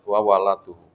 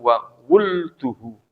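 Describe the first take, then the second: First: The word begins with 'wala', 'a' after both consonants. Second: The word begins with 'wul', no vowel after l. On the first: "fathah keduanya" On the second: "bidhamil wawi wa sukunil lam"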